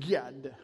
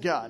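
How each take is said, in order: First: The word is said in a dramatic preacher voice. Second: The word is said in a plain speaking voice. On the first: "He changed his tone. ... it was like God" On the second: "When he said God"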